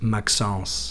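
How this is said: The name is said with a French pronunciation. "in French, it'd be pronounced Maxence"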